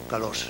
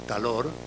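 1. La r final es una asibilada sorda. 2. La r final es un solo toque rápido. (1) "ora como asibilado sordo" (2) "ora como tal alófono vibrante"

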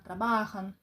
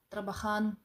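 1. Наголос на середньому складі. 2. Наголос на останньому складі. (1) "Вони будуть всюди на корінь" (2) "От така типова помилка учнів"

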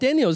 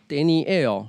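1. 这个名字是用英语的念法。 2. 这个名字是用西班牙语的念法。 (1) "是英文的念法" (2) "搞不好他们其实是Daniel"

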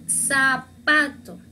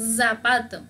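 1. El primer sonido es una s. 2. El primer sonido no es una s. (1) "with S, con S" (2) "para leer no decimos zapato"

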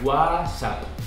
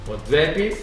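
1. É pronunciada do jeito espanhol, sem o t. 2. É pronunciada com a pronúncia do português brasileiro. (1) "A gente não pronuncia o T. E esse W a gente pronuncia G" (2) "Vocês falam WhatsApp"

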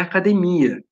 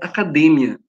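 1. A tônica não está na sílaba 'de'. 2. A tônica está na sílaba 'de'. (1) "Em português é academia" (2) "Em espanhol está destacado o D, então é academia"

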